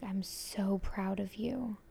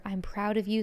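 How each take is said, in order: First: Slow, tender whispered words. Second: Said in the usual way. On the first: Retold or imitated. Retelling the spirit's praise to her, in a slow whisper. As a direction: let each word barely come out on breath. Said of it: "And she was just like". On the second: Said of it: "me being like".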